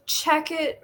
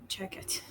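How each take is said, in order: First: Said in the usual way. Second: Much softer, breathed under the breath; whispered. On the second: Real, not acted. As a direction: say it again only to yourself. Repeats answer under breath.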